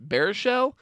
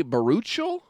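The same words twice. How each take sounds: First: "Baruchel" as BEAR-uh-shell; alternative pronunciation. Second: "Baruchel" as buh-ROO-chul; "Baruchel" drawn out, tentative rise; alternative pronunciation. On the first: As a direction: say "Baruchel" higher, starting like "bear". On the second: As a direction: say "Baruchel" slowly with an "oo" and a "ch". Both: Shown as a demonstration. Trying two pronunciations of surname.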